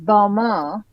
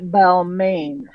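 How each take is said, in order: First: The name is said with French pronunciation. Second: The name is said with English pronunciation. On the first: The speaker calls it right. "the correct pronunciation here is Balmain ... It's the French thing" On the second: The speaker calls it wrong. "not Balmain"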